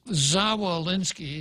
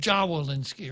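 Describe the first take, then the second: First: The name begins with a z sound. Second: The name begins with a j sound. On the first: "his name starts with a Z" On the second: "in Guam, of course, we would pronounce it Jawolinsky"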